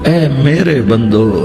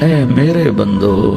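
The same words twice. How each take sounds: No difference in how they are said.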